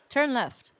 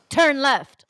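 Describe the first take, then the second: First: It is said gently and softly. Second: It is said firmly and intensely.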